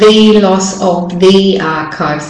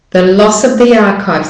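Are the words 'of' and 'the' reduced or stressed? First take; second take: Stressed; Reduced. First: The words 'of' and 'the' are stressed. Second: The words 'of' and 'the' are reduced. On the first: The speaker calls it wrong. "So it's not" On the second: The speaker calls it right. "the of and the, second the, are said not stressed"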